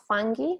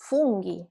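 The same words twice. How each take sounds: First: Fungi with an "uh", "FUN-ghee"; English vowel, wrong. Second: Funghi with an OO, "FOON-ghee"; Italian U. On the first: Teacher warns students off fungi with UH. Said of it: "not fungi". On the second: Teacher shows students funghi with pure OO. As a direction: round the U in funghi. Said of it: "the U is pronounced". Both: Shown as a demonstration.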